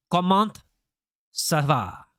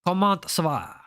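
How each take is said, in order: First: Halting first try at French with a French accent. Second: Smoother second go at French with a French accent. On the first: Streamer greeting viewer Sana in French, careful French accent. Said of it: "I can say it in French". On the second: Streamer repeating his French greeting to chat, smoother French accent. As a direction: run the French greeting in one breath, French accent. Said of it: "I know it was a terrible accent". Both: Shown as a demonstration.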